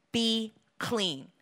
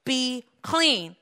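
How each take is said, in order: First: Hushed, measured order; quiet command. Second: Fuller-voiced, firm order; plainly spoken, decisive command. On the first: Acted. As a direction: command it gently, without raising the voice. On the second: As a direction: repeat the command with more weight. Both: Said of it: "He commanded".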